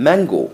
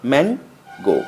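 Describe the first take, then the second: First: Said in the usual way. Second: mango split in two with a pause before the last syllable; broken into syllables. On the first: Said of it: "একটানে উচ্চারণ". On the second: Shown as a demonstration. Teacher showing two syllables, mango said in separate halves. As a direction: break mango apart into two beats. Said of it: "ভেঙে ভেঙে উচ্চারণ করতে হয়".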